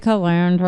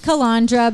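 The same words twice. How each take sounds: First: It is said with an American pronunciation. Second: It is said with an Italian pronunciation. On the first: This is how Americans say it. "for some reason we say calandra" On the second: This is how it is said in Italy. "No, it's calandra"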